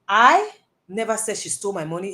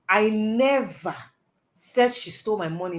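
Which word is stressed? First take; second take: I; never. First: The word 'I' is stressed. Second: The word 'never' is stressed. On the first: Someone else said it, not the speaker. "I'm saying that me, I didn't say it too" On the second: The speaker has never said such a thing. "means that I have never said that sort of thing"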